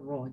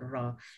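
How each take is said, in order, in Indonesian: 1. Vokalnya penuh dan membulat, seperti 'o'. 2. Vokalnya tipis dan terbuka, seperti 'a'. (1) "pastikan bunyinya ra" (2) "Jangan disebut ra"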